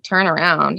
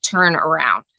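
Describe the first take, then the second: First: A mild, disbelieving echo; puzzled echo. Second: Low, flat, curt order; flat demand. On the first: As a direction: repeat it back as a bewildered question. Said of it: "I was like". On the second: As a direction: say it as a blunt command from the son. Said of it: "all of a sudden he's like". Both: Retold or imitated.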